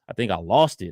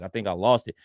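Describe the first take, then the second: First: The voice sounds regretful, warm and apologetic. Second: The voice sounds flat, serious and indifferent. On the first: The speaker cares about the lost item. The speaker calls it right. "if he cared about the actual trophy" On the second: The speaker does not care about the lost item. The speaker calls it wrong. "he sounded very serious"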